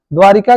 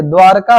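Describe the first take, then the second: First: द्वारिका with a short i in the middle, dwaa-ri-ka; the wrong द्वारिका, as people commonly say it; wrong form. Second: द्वारका with no middle i, dwaar-ka; the correct द्वारका, r running straight into ka; correct form. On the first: Teacher mimicking the common wrong द्वारिका. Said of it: "द्वारिका गलत है". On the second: Teacher correcting the class to द्वारका. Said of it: "द्वारका होता है". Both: Shown as a demonstration.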